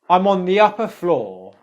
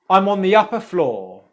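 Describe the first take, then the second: No difference in how they are said.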